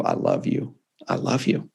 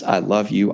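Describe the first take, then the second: First: Softer, breathy whispered love; tender whisper. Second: Said in the usual way. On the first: Retold or imitated. Father at the hospital bed whispering love to his son. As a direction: let it fall to a tender whisper. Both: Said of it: "And then he says".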